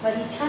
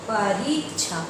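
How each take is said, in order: First: The 'ri' vowel is short and clipped. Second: The 'ri' vowel is long and drawn out. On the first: The speaker calls it wrong. "परी परीक्षा नहीं" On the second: The speaker calls it right. "री ऊंचा स्वर ज्यादा यानी बड़ी"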